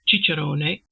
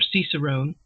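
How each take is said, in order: First: The word is said with Italian-style pronunciation. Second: The word is said with English-style pronunciation. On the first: "They would have said uh, ciccerone" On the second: "the English would have said this cicerone"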